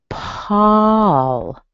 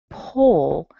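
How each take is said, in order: First: The vowel is an open 'ah' sound. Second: The vowel is an 'oh' sound. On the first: The speaker calls it right. "this is how I would say this guy's name" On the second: The speaker calls it wrong. "So it's not pole"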